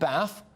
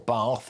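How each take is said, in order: First: Bath is said with a northern short a. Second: Bath is said with a southern long a.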